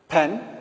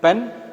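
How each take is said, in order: First: The p has a strong puff of air. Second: The p has no puff of air.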